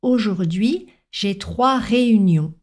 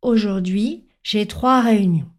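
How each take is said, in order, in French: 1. La syllabe finale est bien prononcée et audible. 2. La syllabe finale s'estompe et est difficile à entendre.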